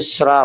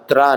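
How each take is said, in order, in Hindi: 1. यह अक्षर श की आवाज़ से शुरू होता है। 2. यह अक्षर त की आवाज़ से शुरू होता है। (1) "सरोथे में रेप लगाने से श्रा बनेगा" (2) "ऐसे सात त्रा नहीं पढ़ना"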